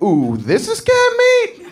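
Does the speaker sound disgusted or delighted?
delighted. It sounds delighted and eager.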